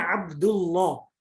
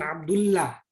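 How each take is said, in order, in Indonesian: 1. Huruf 'l' pada Allah dibaca tebal. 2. Huruf 'l' pada Allah dibaca tipis. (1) "itu dibacanya Abdullah" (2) "bukan Abdullah"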